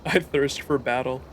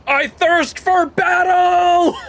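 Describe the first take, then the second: First: Said in the usual way. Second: High, slow, loud war cry; battle cry. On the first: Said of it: "repeated flatly after joking". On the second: Acted. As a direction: bellow it like a hero charging. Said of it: "battle cry, slow and high".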